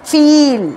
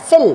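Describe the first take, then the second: First: ফিল as "feel", with a long drawn-out ee. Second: ফিল as "fill", with a short i. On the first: Teacher contrasting feel with fill, long ee vowel. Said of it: "এটা কিন্তু long ই". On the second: Teacher contrasting fill with feel, short i vowel. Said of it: "দুটো কিন্তু সম্পূর্ণ আলাদা". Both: Shown as a demonstration.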